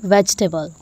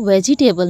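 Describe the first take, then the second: First: The middle sounds are run together. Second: The middle sounds are said separately. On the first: The speaker calls it right. "इसको हम इमर्ज करके बोलेंगे" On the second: The speaker calls it wrong. "इसको वेजिटेबल नहीं बोलेंगे हम"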